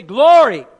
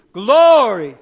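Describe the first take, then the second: First: Loud call of Glory. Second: Belted loud Glory; louder. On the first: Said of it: "Everybody say". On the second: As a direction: shout Glory like you really mean it. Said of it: "Say it louder". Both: Shown as a demonstration.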